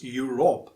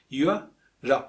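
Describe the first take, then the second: First: The second syllable has a clear O vowel. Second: The second syllable has no clear O vowel. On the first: The speaker calls it wrong. "we usually pronounce Europe with O sound in the second syllable" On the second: The speaker calls it right. "but it's Europe"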